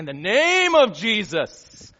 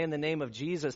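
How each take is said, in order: First: It is said dramatically, with heavy, showy inflection. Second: It is said plainly, with ordinary intonation. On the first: A prayer performed for show. "that's another thing, isn't it? Right? That's just acting" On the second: An ordinary, sincere prayer. "that's one thing"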